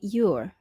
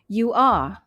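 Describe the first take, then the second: First: It is contracted into one syllable. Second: It is said as two full words.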